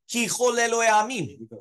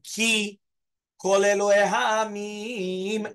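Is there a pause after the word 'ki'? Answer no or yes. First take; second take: no; yes. First: It runs on with no pause after ki. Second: There is a pause after ki. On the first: The speaker calls it wrong. "you're not going to make a pause" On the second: The speaker calls it right. "Because there's a pasek. So you have to do"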